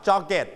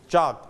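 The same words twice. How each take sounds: First: "jogget" said as two syllables, JOG-get; wrong extra syllable. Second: "jogged" as one syllable, JOGD; softened final d. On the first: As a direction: say "jogget" with a full -et ending. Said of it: "and it's not jogget". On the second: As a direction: end "jogged" on a light d. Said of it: "volume down". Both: Shown as a demonstration.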